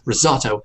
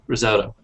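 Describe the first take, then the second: First: It has an ah vowel and hard T. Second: It has an O vowel and soft T. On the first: "with the British English, we hit that sort of ah sound, and we have two T's" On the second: "American English, it's more of an O sound, and they soften that T"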